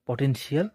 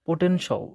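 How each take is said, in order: First: The word ends with a drawn-out 'shee-al' sound. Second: The word ends with a short 'shul' sound. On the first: The speaker calls it wrong. "আমরা যেভাবে উচ্চারণ করি" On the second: The speaker calls it right. "ইংরেজিতে আছে সল"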